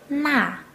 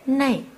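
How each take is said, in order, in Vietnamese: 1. Nguyên âm đơn, không có âm lướt cuối. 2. Nguyên âm kết thúc bằng âm lướt 'ee'.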